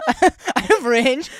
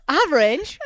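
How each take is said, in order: First: Very slow, high "I have range", each word stretched; drawn-out boast. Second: "range" said high and loud through a laugh; laughing boast. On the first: Shown as a demonstration. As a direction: savour the brag slowly in a put-on voice. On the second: Real, not acted. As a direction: brag about your voice while laughing.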